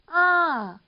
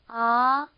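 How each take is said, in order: First: The pitch rises high and then falls. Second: The pitch rises steadily from start to end. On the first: "평성보다 올라갔다가 내려오는 이런 음" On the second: "이렇게 올라가는 음인 거죠"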